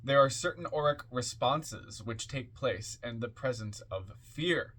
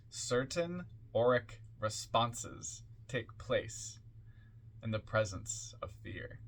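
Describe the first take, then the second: First: Said in the usual way. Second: Spaced out phrase by phrase, softening at the end; slow, deliberate repeat. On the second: Shown as a demonstration. Reader repeats a key point for listeners, slow and deliberate. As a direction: repeat it slowly so each piece sinks in. Repeats the line slowly for emphasis.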